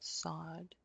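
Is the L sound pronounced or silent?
silent. The L sound is left out entirely. This is the American way of saying it. "sod is American"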